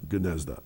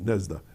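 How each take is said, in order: First: The name begins with a hard G sound. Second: The name begins with an N sound.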